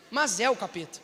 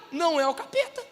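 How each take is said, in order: First: Mas é o capeta with mas stressed, lower and falling firmly at the end. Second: Não é o capeta with não raised and the tune rising at the end; stress on não. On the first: Preacher answering his own line, mas é o capeta low and falling. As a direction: drop the voice and land mas é o capeta with finality. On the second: Preacher playing on the words, não é o capeta stressed on não with a rising tune. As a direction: lift não and let capeta rise like a question. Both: Shown as a demonstration.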